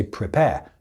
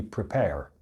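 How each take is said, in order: First: "prepare" ending on an open vowel, no R; British, silent final R. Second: "prepare" with a clearly sounded R at the end; American, final R pronounced. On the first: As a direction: say "prepare" the British way, dropping the last R. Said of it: "we don't pronounce that in". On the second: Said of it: "So in American English". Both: Shown as a demonstration.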